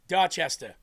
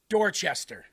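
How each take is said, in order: First: It is said in a New England accent. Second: It is said in a general American accent. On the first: The speaker calls it right. "Anybody that's watching right now from New England knows that you say Dorchester" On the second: The speaker calls it wrong. "you don't say Dorchester"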